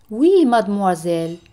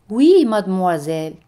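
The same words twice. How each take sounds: The two takes are said the same way.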